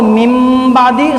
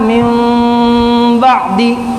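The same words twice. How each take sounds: First: The lips press firmly shut on the nasal. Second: The lips touch lightly with a nasal hum. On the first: The speaker calls it wrong. "सख्ती के साथ मिलाकर" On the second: The speaker calls it right. "दोनों होठों को नरमी के साथ मिलाना"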